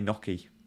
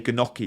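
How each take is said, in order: First: The word starts without any G sound. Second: The word starts with a hard G sound. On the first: The speaker calls it right. "you'd say Gnocchi" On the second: The speaker calls it wrong. "you wouldn't say Gnocchi"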